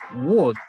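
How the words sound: It is said in an Indian English accent. "los indios dicen wood"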